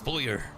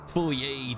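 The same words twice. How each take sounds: First: It is pronounced the American way. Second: It is pronounced the Canadian way. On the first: The speaker calls it right. "That's how you say it in America" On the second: The speaker calls it wrong. "that's Canadian"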